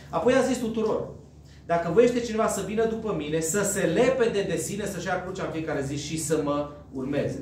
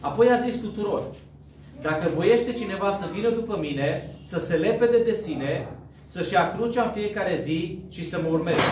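No difference in how they are said.

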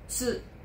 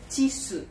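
First: The t and s form one tight cluster. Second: A short vowel is inserted between t and s. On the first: The speaker calls it right. "É TSU" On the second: The speaker calls it wrong. "Não é TSU"

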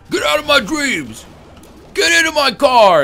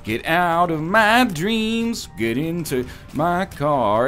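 First: It is said in a forceful, menacing way. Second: It is said in a plain, neutral way.

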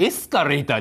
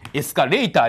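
First: The accent falls on the first syllable. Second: The accent falls later in the word. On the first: The speaker calls it right. "エスカレーターですよ" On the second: The speaker calls it wrong. "エスカレーターではございません"

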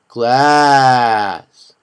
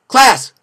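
First: The word is said slowly. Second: The word is said quickly. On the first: "Say it slow" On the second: "Say it fast"

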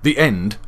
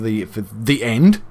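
First: The voice falls at the end, like a statement. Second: The voice rises at the end, like a question. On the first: It is a plain final statement. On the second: It is a question.

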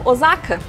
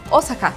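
First: It is said with a Portuguese pronunciation. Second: It is said with a Japanese pronunciation. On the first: This is how Brazilians naturally say it. "de forma aportuguesada, tende a falar de forma natural Osaka" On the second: This is how local people say it. "Pra falar no japonês, as pessoas falam Osaka"

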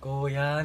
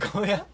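First: The final vowel is lengthened. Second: The final vowel is short. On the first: The speaker calls it right. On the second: The speaker calls it wrong.

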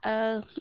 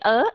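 First: The pitch stays level through the syllable. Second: The pitch rises through the syllable. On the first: "cái chữ ơ của Việt Nam là" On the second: "cho dấu sắc vào"

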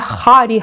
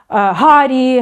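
First: The word begins with a rough kh sound. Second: The word begins with a voiced h sound. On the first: The speaker calls it wrong. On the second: The speaker calls it right.

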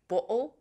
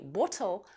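First: The middle t is a glottal stop. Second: The middle t is a clear t. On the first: The speaker calls it right. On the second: The speaker calls it wrong.

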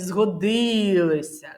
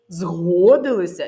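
First: The stress is on the second syllable. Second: The stress is on the first syllable. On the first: The things came in handy. "звук І" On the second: They agreed to something. "Звук О"

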